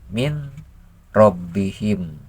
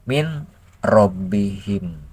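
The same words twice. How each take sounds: No difference in how they are said.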